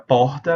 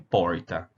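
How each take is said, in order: First: It is said in a Pernambuco accent. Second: It is said in an inland São Paulo accent. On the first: "a gente vai falar exatamente assim como eu estou falando" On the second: "interior de São Paulo, Minas Gerais"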